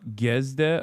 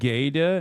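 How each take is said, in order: First: The s sound is pronounced. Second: The s sound is silent. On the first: The speaker calls it wrong. "not Gesde" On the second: The speaker calls it right. "It's pronounced like Gede"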